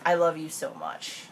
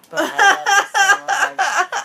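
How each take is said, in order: First: Said in the usual way. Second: High, loud, slow wail of I love you so much; laughing breakup plea, high and slow; mock breakup plea. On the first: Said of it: "five-step". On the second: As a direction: wail it like being dumped. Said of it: "what you say when you're getting broken up with".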